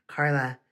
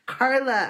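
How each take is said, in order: First: Said in the usual way. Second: High, loud call across the crowd; yelled. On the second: A narrator's reading. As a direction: shout her name over the kids. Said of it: "I yelled".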